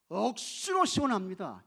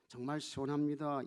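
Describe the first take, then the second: First: Loud, punchy Gyeongsang imitation; Gyeongsang dialect. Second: Said in the usual way. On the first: Preacher shows how Gyeongsang people say it, Gyeongsang dialect. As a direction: put on a Gyeongsang accent, punching 억수로. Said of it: "이렇게 이야기해요. 경상도 사람들은". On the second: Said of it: "경상도 사람들은 어떻게 말할까?".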